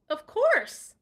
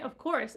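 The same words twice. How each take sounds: First: Much higher and louder, eager; eager Terrence, quick and keen; quick eager reply. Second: Said in the usual way. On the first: Acted. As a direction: jump in eagerly. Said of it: "Terrence said quickly".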